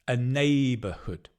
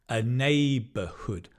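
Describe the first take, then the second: The two takes are said the same way.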